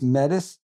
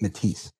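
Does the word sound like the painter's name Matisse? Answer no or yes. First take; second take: no; yes. First: The word is not said like Matisse. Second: The word is said like Matisse. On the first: This is the name of the speaker's business. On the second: This is how a native group in Canada says it.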